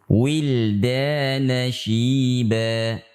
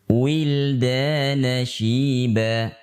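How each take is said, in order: The two takes are said the same way.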